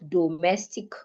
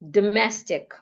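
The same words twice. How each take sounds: First: The first vowel is a full vowel. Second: The first vowel is reduced to a schwa. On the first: The speaker calls it wrong. "not domestic" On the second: The speaker calls it right. "The letter O changes to a schwa"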